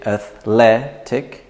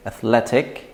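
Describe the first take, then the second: First: Athletic broken into ath-LE-tic; syllable by syllable. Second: Athletic joined up, LET strongest; stress on LET. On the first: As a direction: say "athletic" in separate syllables, stress on LE. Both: Shown as a demonstration. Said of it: "So we say athletic".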